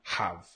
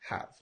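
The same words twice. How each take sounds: First: The h sound is strong and overstressed. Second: The h sound is soft and light. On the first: The speaker calls it wrong. "not have" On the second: The speaker calls it right. "try to soften your H sound"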